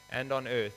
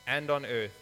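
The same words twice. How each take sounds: The two takes are said the same way.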